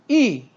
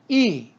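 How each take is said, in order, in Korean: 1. 음높이가 높은 데서 낮게 확 떨어져요. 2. 음높이가 높은 데서 낮게 확 떨어져요.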